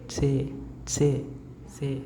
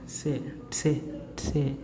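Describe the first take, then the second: The two takes are said the same way.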